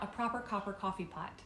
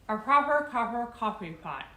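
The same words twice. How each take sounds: First: The words sound clear and crisp. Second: The words sound muffled and thick. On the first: "And then I take it out" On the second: "if you try it with this cork in your mouth too"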